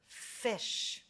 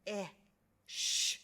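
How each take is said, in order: First: Said in the usual way. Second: "F-I-sh" as three separate sounds, fff, ih, shh; sounded out. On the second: Shown as a demonstration. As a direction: hold and separate each sound of "F-I-sh". Teacher sounds out fish by parts.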